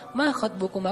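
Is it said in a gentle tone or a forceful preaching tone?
gentle. It is said in a soft, polite tone.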